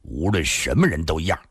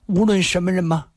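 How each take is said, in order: First: Low, firm answer; resolute man. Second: High, light questioning voice; questioning woman. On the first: Afei assuring the woman of his vow, resolutely. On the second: Woman asking her protector for assurance, delicately. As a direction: ask it high, seeking assurance. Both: A narrator's reading.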